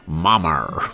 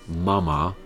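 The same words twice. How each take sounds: First: The word ends with an added R sound. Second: The word ends in a plain vowel, no R. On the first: The speaker calls it wrong. "they put an R on the end, like mama" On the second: The speaker calls it right. "instead of making it mama"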